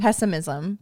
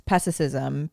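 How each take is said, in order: First: Pessimism said cleanly as PESS-uh-miz-um; careful corrected pessimism; corrected pronunciation. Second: Pessimism said as "pestesism", stumbling; garbled pessimism with an extra t sound; mispronounced pessimism. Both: Real, not acted.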